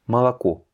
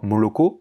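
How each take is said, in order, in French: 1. Les deux premières voyelles sonnent comme un A. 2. Les deux premières voyelles sonnent comme un O. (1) "mais Malako" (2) "On ne va pas dire Moloko"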